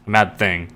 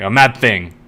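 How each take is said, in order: First: Said in the usual way. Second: Mock outburst. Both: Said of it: "then she smacks her hand".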